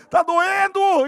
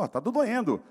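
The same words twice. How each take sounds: First: High, loud cry that it hurts; pained yell. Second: Said in the usual way. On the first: Retold or imitated. Patient yells at the therapist that it hurts. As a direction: yell it out as the pain peaks. Third pain plea, therapist ignores.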